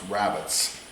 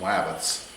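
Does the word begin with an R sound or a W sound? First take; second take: R; W. First: The word begins with an R sound. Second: The word begins with a W sound. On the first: The speaker calls it right. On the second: The speaker calls it wrong.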